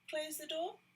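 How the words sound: It is said nicely, in a gentle tone.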